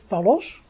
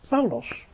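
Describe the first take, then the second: First: The stress is on the second syllable. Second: The stress is on the first syllable. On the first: The speaker calls it wrong. "Dus niet Paulos" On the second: The speaker calls it right. "dan legt u de klemtoon op de eerste lettergreep"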